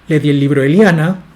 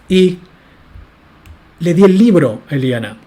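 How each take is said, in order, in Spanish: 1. Se dice sin pausa antes de 'a Eliana'. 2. Se dice con pausa antes de 'a Eliana'. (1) "Noten que hay una diferencia entre esta oración" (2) "introducir una pausa entre el libro y a Eliana"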